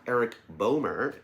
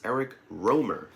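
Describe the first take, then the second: First: The surname begins with a B sound. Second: The surname begins with an R sound. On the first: The speaker calls it wrong. "It is not" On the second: The speaker calls it right. "it is"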